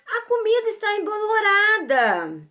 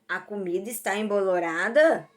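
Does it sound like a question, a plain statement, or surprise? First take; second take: surprise; question. First: It is said with a surprised tone. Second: It is said as a question.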